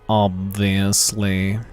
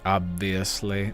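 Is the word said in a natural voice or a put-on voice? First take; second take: put-on; natural. First: It is said in a slow, drawling put-on voice. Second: It is said in the speaker's natural voice.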